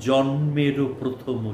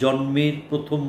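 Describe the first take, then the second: First: The first word ends with an added vowel. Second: The first word ends in a bare consonant. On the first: The speaker calls it right. "তাই জন্মেরও প্রথম শুভক্ষণ" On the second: The speaker calls it wrong. "আপনি হসন্ত উচ্চারণ করে দেখুন, আপনার নিজের কানেই লাগবে।"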